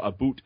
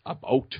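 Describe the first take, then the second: First: "boot" with a long oo, for "about"; Canadian vowel. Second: "bout" with an open ow, as in "out"; standard vowel. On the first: Guest quotes the disputed Canadian word, "boot" with oo. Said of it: "she'll argue that it's not a boot". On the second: Guest quotes partner's correction, "bout" with ow. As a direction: open "bout" into a clear ow diphthong. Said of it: "argue that it's not a boot". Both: Shown as a demonstration.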